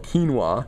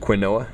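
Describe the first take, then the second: First: It is said keen-wah, in two syllables. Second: It is said kwin-oh-ah, following the letters. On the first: "it's called quinoa" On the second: "I love saying it that way"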